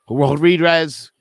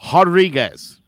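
First: The name begins with an English R sound. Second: The name begins with an H sound. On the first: The speaker calls it wrong. "or however you're trying to say that" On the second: The speaker calls it right. "the R sounds like an H"

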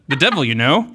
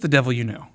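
First: A pause follows 'devil' and it ends rising. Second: It flows without a pause and ends falling. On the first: It asks the listener whether they understand. The speaker calls it wrong. "wherever the inflection is, totally changes the meaning of the title" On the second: It names a devil that one is familiar with. The speaker calls it right. "there is no comma there"

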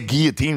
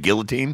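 First: The word is said with a French-style pronunciation. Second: The word is said with an English-style pronunciation.

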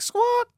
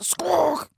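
First: The squawk sounds plain and ordinary. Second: The squawk sounds fierce and aggressive.

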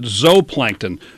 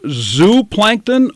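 First: The first syllable rhymes with 'go'. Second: The first syllable rhymes with 'do'. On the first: "since we say zoology, is it zooplankton?" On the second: "Is it pronounced zooplankton"

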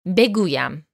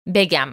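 First: The word is said in its full three-syllable form. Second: The word is said in a shortened two-syllable form. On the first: This is the form used in written language and poetry. "Beguyam means I say" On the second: This is the form used in everyday conversation. "When you're speaking in conversational Persian, beguyam gets reduced to begam"

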